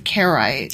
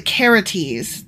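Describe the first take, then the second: First: The name is pronounced as Karaites. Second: The name is pronounced as Karates. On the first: The speaker calls it wrong. "not the Karaites" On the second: The speaker calls it right. "It's the Karates"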